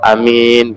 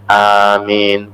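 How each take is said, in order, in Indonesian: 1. Vokalnya diucapkan pendek, tidak dipanjangkan. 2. Kedua vokal diucapkan panjang. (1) "Bukan amin atau amin gitu" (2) "Jadi alifnya panjang, mimnya panjang, amin gitu"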